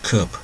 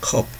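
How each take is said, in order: First: The final p sound is clearly audible. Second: The final p sound is dropped. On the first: The speaker calls it right. "P 발음을 꼭 한다" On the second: The speaker calls it wrong. "한국말에서 그냥 컵 이러죠"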